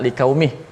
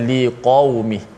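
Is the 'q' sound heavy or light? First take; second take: light; heavy. First: The 'q' sound is light, like a 'k'. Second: The 'q' sound is heavy and thick. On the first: The speaker calls it wrong. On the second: The speaker calls it right.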